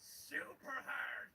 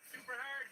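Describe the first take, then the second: First: Slow, heavy super hard; drawn out. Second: Said in the usual way. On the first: Shown as a demonstration. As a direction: drag out super hard like it hurts. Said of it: "that's how I feel while I play it". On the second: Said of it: "Super hard, you say?".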